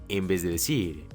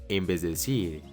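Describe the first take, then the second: The two takes are said the same way.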